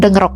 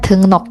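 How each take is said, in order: First: The second syllable starts with an r sound. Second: The second syllable starts with an n sound. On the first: The speaker calls it wrong. "bukan dengrok" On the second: The speaker calls it right. "Ini dibacanya 등록"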